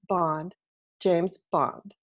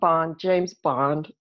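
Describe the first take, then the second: First: The pitch drops slightly and flatly at the end. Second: The pitch drops dramatically and heavily at the end. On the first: The statement sounds definitive and not open to negotiation. The speaker calls it right. "we just drop the chin a little bit at the end, and that creates that period" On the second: The statement sounds overdone and theatrical. The speaker calls it wrong. "where the chin drops all the way to my chest"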